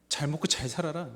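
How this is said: It sounds bitter and spiteful. It is said in anger at parting. "뭐 이런 느낌으로 쓰니까요"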